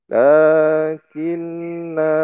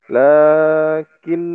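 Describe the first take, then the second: First: The word ends with a vowel after the n. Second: The word ends on the n consonant. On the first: The speaker calls it right. "kalau di wakof bacanya lakinna" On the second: The speaker calls it wrong. "Bukan lakin. Nah, itu salah"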